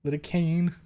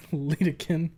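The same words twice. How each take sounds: First: "Lidocaine" ending in a long "kane"; corrected Lidocaine. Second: "Lidocaine" ending in a short "kin"; mispronounced Lidocaine. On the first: Streamer retrying the word, "Lidocaine" with a clear "kane" ending. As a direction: say "Lidocaine" with a full "cane" at the end. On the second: Streamer stumbling over a word, "Lidocaine" said as LEE-duh-kin. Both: Shown as a demonstration. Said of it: "Gonna end up just like Le".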